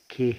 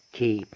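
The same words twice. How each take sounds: First: "كي" cut to a plain "keh"; mispronounced K. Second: "كي" said as "kay", gliding to y; correct letter name. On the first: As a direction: say "كي" as "keh", without the closing y glide. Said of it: "ما نقولش كي". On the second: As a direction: say "كي" like English "kay", with the full glide. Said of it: "لا، اسمه كي". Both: Shown as a demonstration.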